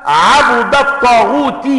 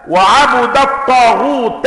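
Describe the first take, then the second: First: عبد الطاغوت slow, as 'abudu t-taghuti; Hamza's reading for contrast. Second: وعبد الطاغوت slow, as wa-'abuda t-taghuta; reading of Yahya ibn Waththab. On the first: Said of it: "ليست كقراءة حمزة". (عبدُ الطاغوتِ قراءة حمزة للمقارنة) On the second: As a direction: put a damma on the ba of عبد and a fatha on the ta. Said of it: "بضم الباء ونصب التاء". (وعبُدَ الطاغوتَ بضم الباء ونصب التاء) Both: Shown as a demonstration.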